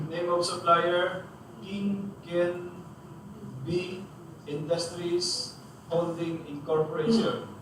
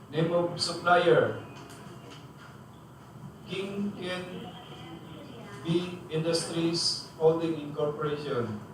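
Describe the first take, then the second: The two takes are said the same way.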